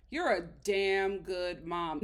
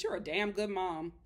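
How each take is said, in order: First: Slow, each word weighed, leaning on "damn good mom"; slow, emphatic praise. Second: Said in the usual way. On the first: Real, not acted. Telling the mom on the show, slow and emphatic. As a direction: say "You're a damn good mom" slowly and firmly, like you mean it.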